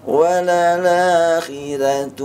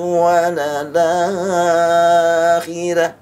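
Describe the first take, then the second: First: The long vowel is held for two counts. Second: The long vowel is held for six counts. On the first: "la-nya dua harokat" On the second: "mad enam harokat"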